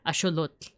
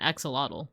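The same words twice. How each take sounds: First: The word is said with Nahuatl pronunciation. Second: The word is said with English pronunciation.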